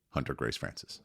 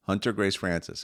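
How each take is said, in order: First: A softer, shy little answer, said low; mumbling her name to a stranger; quiet child mumble. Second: "Hunter Grace Francis" said higher and clearly up from a mumble; saying it louder. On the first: Parent asks toddler her name, she answers in a quiet mumble. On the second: Toddler repeats her name louder after parent asks, speaking up. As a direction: speak up so the room hears. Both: Retold or imitated. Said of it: "can you say it a little bit louder".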